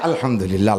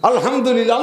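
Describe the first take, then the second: First: It is said flatly and without enthusiasm. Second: It is said warmly with happy enthusiasm. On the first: It is said out of obligation despite hardship. "দায় থেকে আলহামদুলিল্লাহ" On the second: It is said out of real contentment. "খুশির আলহামদুলিল্লাহ"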